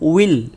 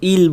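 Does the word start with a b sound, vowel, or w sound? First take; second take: w sound; vowel. First: The word begins with a rounded w sound. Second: The word begins directly with a vowel. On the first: The speaker calls it right. "ইলও নয় আর বিলও নয়, তাহলে আমরা বলবো উইল" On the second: The speaker calls it wrong. "আর কেউ ইল বলে ফেলি"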